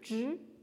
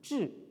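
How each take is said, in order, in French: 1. La syllabe se prononce sur un ton haut et plat. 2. La syllabe se prononce sur un ton descendant. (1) "qui peut se prononcer donc au premier ton zhi" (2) "il se prononce donc au quatrième ton, zhi"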